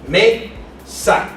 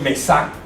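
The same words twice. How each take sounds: First: The stress is on the first syllable. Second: The stress is on the last syllable. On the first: The speaker calls it right. "¿Dónde está el sonido fonético? En me" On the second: The speaker calls it wrong. "No decimos mesa"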